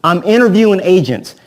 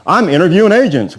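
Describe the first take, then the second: First: A light mock seller, a bit higher and louder, falling at the end; seller's line. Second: The same light mock seller again, a bit higher and louder; seller's line. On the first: Agent mimics a seller calling to say he's interviewing agents, lightly voiced. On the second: Agent repeats the seller's stock line to the trainees, lightly voiced. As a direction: toss off the seller's stock line one more time. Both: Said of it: "he talks like this".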